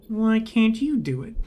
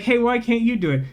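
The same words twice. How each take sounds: First: Said in the usual way. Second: Blunt subtext read. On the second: Retold or imitated. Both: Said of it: "can I read the subtext out".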